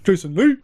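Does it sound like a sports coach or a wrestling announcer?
sports coach. It sounds like a dad coach calling a player.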